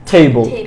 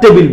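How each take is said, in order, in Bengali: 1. দ্বিতীয় সিলেবলটি একটি সাধারণ স্বরধ্বনিহীন 'bl'। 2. দ্বিতীয় সিলেবলে একটি স্পষ্ট 'i' স্বরধ্বনি আছে। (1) "কারেক্ট উচ্চারণটা হচ্ছে টেবল" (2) "most of the time ভুল করে যেটা উচ্চারণ করি"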